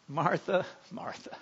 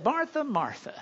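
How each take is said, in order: First: Soft, tender, almost fading to silence; gentle. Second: Firm, scolding call of her name; a warning call, Martha's in trouble; stern warning. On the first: Jesus gently correcting busy Martha, soft and tender. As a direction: call her name lovingly and softly. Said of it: "gently says". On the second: Jesus warning busy Martha, stern. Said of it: "you know you're in trouble". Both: Retold or imitated.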